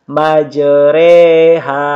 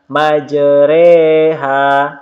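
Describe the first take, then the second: The two takes are said the same way.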